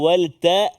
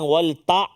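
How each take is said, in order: First: The final sound is soft and light. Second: The final sound is pushed and harsh. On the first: The speaker calls it right. "Lepas tu lembut dia" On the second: The speaker calls it wrong.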